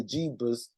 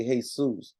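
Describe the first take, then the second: First: "Jeebus" with an English JEE at the front; English pronunciation. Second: "Jesus" said hey-SOOS; Spanish pronunciation. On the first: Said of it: "Like in English, they say". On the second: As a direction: say "Jesus" the Mexican way, breathy H and stressed SOOS. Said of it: "Mexico, they say". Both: Shown as a demonstration.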